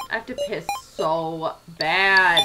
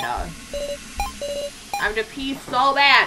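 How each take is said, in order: First: Said in the usual way. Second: Higher, very slow, stretched whine; whiny cute voice. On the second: Shown as a demonstration. Reworded line redone high and slow, as a whine. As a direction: draw it out like a cutesy whine.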